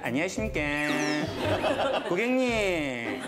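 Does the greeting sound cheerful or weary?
weary. The greeting sounds flat and tired. The speaker is emotionally worn out by the work. "제가 안 해드리고 싶어서 그런 게 아니고요"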